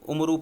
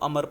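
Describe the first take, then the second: First: The name ends with a final u vowel. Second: The name ends on the consonant r. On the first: The speaker calls it wrong. "वो students इसमें गलती करते हैं, वो इसको उमरू पढ़ते हैं" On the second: The speaker calls it right. "वाव नहीं पढ़ेंगे"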